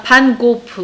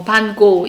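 First: 반고프 slowly, with a final 프 syllable; pronunciation demo. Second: 반고 left open on 고, no final 프; pronunciation demo. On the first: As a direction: finish 반고프 on an added "peu". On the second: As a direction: end 반고 on a plain "go". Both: Shown as a demonstration. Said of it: "네덜란드식 발음과는 좀 다른가".

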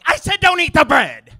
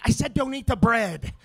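First: Much higher, much louder full shout. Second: Much higher and louder yell; exasperated yell. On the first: Dad blowing up at crying kid about bread, full shout. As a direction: scream it across the restaurant. Dad's final blow-up. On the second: Dad yelling at crying kid about bread, exasperated. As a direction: snap at the table, fed up. Dad losing patience at table. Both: Acted.

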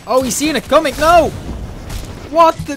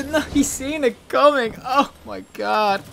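First: Startled outcry. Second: High, slow, stretched-out lament; drawn-out mock despair. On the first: Ambush fails. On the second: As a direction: wail it like a tragedy. Repeats the line in mock despair. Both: Real, not acted.

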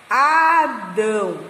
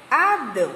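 First: "Adão" very slow, split as A - dão; syllable-by-syllable. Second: Said in the usual way. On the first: Shown as a demonstration. Teacher joining syllables for the class, slow and split. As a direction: stretch out both syllables of "Adão". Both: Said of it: "a junção dessas sílabas".

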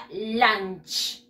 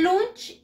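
First: "lunch" with an open ah-like vowel, "lanch"; English pronunciation. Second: "lunch" read as Spanish, with an oo vowel; as spelt. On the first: Teacher showing pupils how it is pronounced, "lunch" the English way. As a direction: model "lunch" clearly in English, vowel as in "cut". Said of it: "y se pronuncia lunch". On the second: Teacher showing pupils how it is written, "lunch" as spelt in Spanish. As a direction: say "lunch" letter by letter in Spanish sounds, "loonch". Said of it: "Se escribe lunch". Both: Shown as a demonstration.

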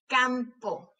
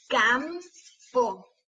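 First: Said in the usual way. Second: "Campo" slowly as cam, pause, po; split into syllables. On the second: Shown as a demonstration. Teacher showing lips closing on M, syllable by syllable. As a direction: break "Campo" between its two syllables. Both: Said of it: "para ver cuáles de esas sílabas".

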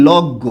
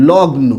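First: লগ্ন as "log-go", n becomes g; everyday pronunciation. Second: লগ্ন as "log-no", with the n sounded; full pronunciation. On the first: Teacher shows what we often say, as log-go. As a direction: double the g in লগ্ন, no n sound. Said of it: "উচ্চারণটা আমরা প্রায়ই আবার এরকম". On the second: Teacher repeats the word for the class, sounding log-no. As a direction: say g and then n in লগ্ন. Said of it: "আবার এরকম করে থাকি". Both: Shown as a demonstration.

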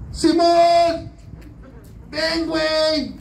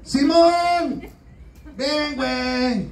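First: Very high, slow pleading call; desperate call. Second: High, drawn-out call; crying out to Simon. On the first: Jesus calling Simon again, much higher and slower. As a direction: wail it out from the cross. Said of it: "postrado en su cruz dijo". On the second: Jesus on the cross calling Simon, high and slow. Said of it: "le vuelve a gritar Jesús". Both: Retold or imitated.

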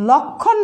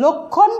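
First: লক্ষণ with open ɔ, "lawk-khon"; as written, open vowel. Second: লক্ষণ with rounded o, "lok-khon"; as pronounced, closed o. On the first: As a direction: say লক্ষণ as spelt, first vowel wide. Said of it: "লিখেছি". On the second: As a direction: say লক্ষণ with first vowel closed to o. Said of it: "উচ্চারণ হবে". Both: Shown as a demonstration.

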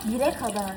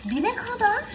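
First: Said in the usual way. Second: High, rising stress on Bire kadar; indignant emphasis. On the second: Real, not acted. Telling followers how long she waited, stressing Bire kadar in disbelief. Repeats waiting time indignantly.

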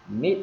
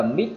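First: "Mid" said as Vietnamese "mít", unreleased; short rising "Mid", no T burst; stopped final T. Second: "mid" as "mít" with a popped T; over-released T at the end of "mid"; released final T. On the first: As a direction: cut "Mid" off with the tongue held in place. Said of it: "dừng lại cái chữ mid". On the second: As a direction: let air burst after "mid". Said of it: "chúng ta không phải bật là mid". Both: Shown as a demonstration.

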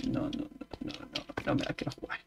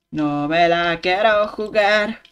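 First: Fast whispered refusal. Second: Slow, spaced-out No me la quiero jugar; slow deliberate. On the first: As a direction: hiss it quietly and quickly. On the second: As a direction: say it slowly and firmly. Voiced slow repeat. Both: Shown as a demonstration.

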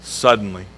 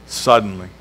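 First: Suddenly, dropped soft and low; savoring the word suddenly; hushed emphasis. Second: Suddenly, said again soft and low; savoring Suddenly a second time; hushed repeat. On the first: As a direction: lean into suddenly quietly. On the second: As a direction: let Suddenly sink in quietly. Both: Shown as a demonstration. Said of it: "I like that word".

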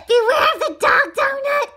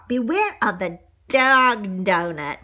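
First: High, loud, giggly repeat; laughing squeal. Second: Slow, drawn-out narrator warning. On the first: Acted. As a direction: shout it in a squeaky voice through laughter. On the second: A narrator's reading. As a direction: stretch it out in the storyteller's own voice. Reader's closing line, first take.

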